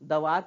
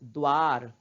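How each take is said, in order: First: A short vowel is heard between d and v. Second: The d joins straight onto v, no vowel. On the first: The speaker calls it wrong. "दवार पढ़ते हैं क्या? नहीं" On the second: The speaker calls it right. "द का उच्चारण हम आधा ही कर रहे हैं"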